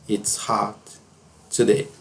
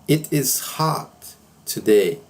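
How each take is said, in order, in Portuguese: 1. It is é contraído para uma única sílaba. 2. It is é dito como duas palavras completas.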